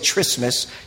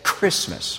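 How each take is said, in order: First: It begins with a soft ch sound. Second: It begins with a hard k sound. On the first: The speaker calls it wrong. "you don't say Christmas" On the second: The speaker calls it right. "which is like a hard CH, you know, you say Christmas"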